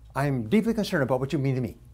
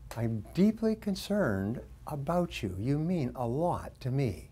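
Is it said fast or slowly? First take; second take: fast; slowly. First: It is said quickly. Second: It is said slowly.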